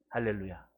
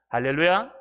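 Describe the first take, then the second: First: Said in the usual way. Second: 할렐루야 called out louder, rising at the end; called hallelujah. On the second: Shown as a demonstration. Pastor calling the congregation to answer, loud and rising. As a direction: call 할렐루야 out to the hall, lifting it. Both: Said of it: "할렐루야 repeated".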